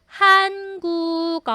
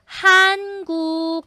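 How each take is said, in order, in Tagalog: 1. Pinagdudugtong ang mga pantig, at nagiging g ang k. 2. Pinagdudugtong ang mga pantig, at nagiging g ang k.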